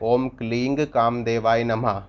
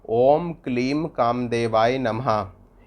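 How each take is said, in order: First: The second word ends with an ng sound. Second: The second word ends with an m sound. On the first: "क्लीम की जगह क्लिंग भी पढ़ सकते हैं" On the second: "मंत्र इस प्रकार है"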